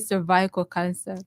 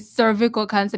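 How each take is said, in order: First: Cervical is said unlike cervix. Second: Cervical is said to sound like cervix.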